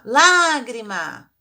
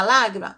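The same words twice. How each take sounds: First: "Lágrima" called loud with a long open A; slow, loud "Lágrima", falling after the stressed A; calling out the word. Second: Said in the usual way. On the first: Shown as a demonstration. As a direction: stretch the first A of "Lágrima" as if calling someone. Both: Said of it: "Vamos chamar a lágrima?".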